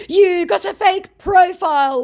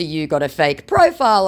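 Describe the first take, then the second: First: Very high, loud jeer; mock scammer accusation. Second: Said in the usual way. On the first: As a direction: imitate an overwrought scammer.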